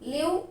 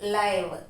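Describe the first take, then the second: First: The vowel is a short i sound. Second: The vowel is a long i sound. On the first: It means to reside. "లివ్ అంటే నివసించడం" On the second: It means broadcast in real time. "లైవ్ అంటే లైవ్ videos"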